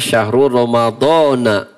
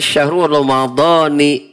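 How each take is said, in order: First: The final word ends with an 'a' vowel. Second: The final word ends with an 'i' vowel. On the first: This follows the exception for this word type. The speaker calls it right. "Sehingga dibaca syahrul Ramadhana" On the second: This follows the general grammar rule. The speaker calls it wrong. "mestinya dibaca syahrul Ramadhani"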